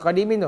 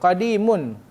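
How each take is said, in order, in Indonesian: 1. Kata ini berakhir dengan bunyi 'in'. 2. Kata ini berakhir dengan bunyi 'un'. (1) "Bukan qadimin tu"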